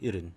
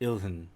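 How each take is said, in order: First: The h sound is silent. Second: The h sound is clearly pronounced. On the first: "But sometimes people say irun" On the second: "they'll put a strong pronunciation of this word"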